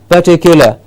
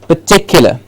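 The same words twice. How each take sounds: First: The first vowel is a clear, full 'er' sound. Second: The first vowel is a weak, reduced schwa sound. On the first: The speaker calls it wrong. "we get an clear er sound at the beginning, which is incorrect" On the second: The speaker calls it right. "So it is just particular"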